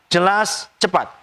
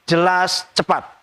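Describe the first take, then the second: No difference in how they are said.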